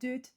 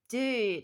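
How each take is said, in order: First: It is said with a put-on French accent. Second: It is said with a Californian accent. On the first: "if I was to put on a awful French accent as well, it'd be like dude" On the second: "generic Californian... it's more of a dude, like ooh"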